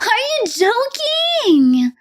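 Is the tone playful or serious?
playful. It sounds playful and teasing.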